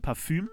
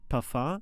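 First: It is said with a German ü vowel. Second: It is said with a put-on, half-French sound. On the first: "es gibt ja Parfüm" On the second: "das Möchtegern französische Parfum"

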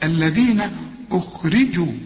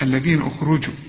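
First: The r is followed by an i vowel. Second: The r is said without an i vowel. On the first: The speaker calls it right. "الراء مكسورة" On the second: The speaker calls it wrong. "في ناس بتقول إيه؟ أخرجوا... لا"

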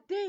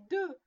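First: The vowel is spread, like French é. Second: The vowel is rounded, like French eu. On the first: The speaker calls it wrong. "On ne dit pas des" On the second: The speaker calls it right. "mais deux"

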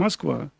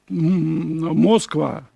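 First: The word is pronounced as in everyday casual speech. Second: The word is pronounced letter by letter, as spelled. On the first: This is how people actually speak. The speaker calls it right. "мы говорим «Москва»" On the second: This is the literary form that people do not actually use. The speaker calls it wrong. "мы не говорим «Москва»"

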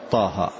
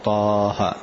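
First: The vowel is held for two counts only. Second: The vowel is stretched well beyond two counts. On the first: The speaker calls it right. "طهر طاها" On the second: The speaker calls it wrong. "ما تقول طاها"

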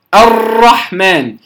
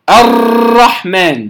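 First: The r is rolled with many repeated taps. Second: The r is rolled with many repeated taps.

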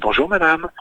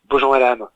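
First: The greeting sounds very sweet and kind. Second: The greeting sounds curt and dry. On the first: The greeting is falsely friendly. "On peut être très gentil" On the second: The greeting is cold and hostile. "On peut faire très sec"

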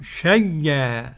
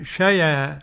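First: The ya sound is doubled and held. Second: The ya sound is short and single. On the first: The hamza is merged into the ya. "والإدغام" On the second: The hamza's vowel is moved onto the ya. "النقل هكذا"

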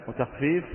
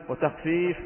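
The two takes are said the same way.

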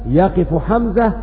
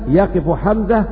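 No difference in how they are said.

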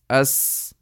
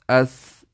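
First: The s sound is sharp and whistling. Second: The s sound is dull, without a whistle. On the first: The speaker calls it right. "whereas the sound should be like" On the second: The speaker calls it wrong. "pronounced casually without taking your tongue to the proper place, and also you don't take care of the sifa of safir in seen, it will just sound like"

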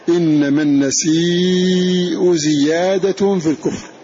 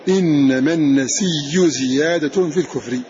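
First: The word 'nasi' ends with a glottal stop. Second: The word 'nasi' ends with a doubled 'y'.

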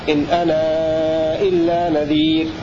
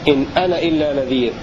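First: The vowel of ana is held for four counts. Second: The vowel of ana is not lengthened at all. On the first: "والتوسط" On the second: "فالقصر المقصود به عدم المد مطلقا"

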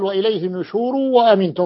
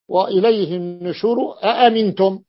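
First: The last word begins with a w sound. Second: The last word begins with a glottal stop. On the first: The question hamza has been replaced by a waw. "فيبدلون أحيانا بالصوت واوا كقراءة قنبل" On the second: The original question hamza is kept. "هي القراءة وإليه النشور أأمنتم"

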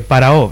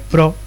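First: The two words are said separately. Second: The words are contracted into one syllable. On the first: "lee o separado" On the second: "pode facer esa contracción espontaneamente na fala"

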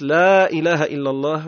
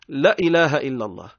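First: The first 'la' has a drawn-out vowel. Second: The first 'la' has a clipped, short vowel. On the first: The speaker calls it right. "عوض أن يقول الشخص" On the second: The speaker calls it wrong. "كلا اللولانية ذيك ما يطولوش فيها"

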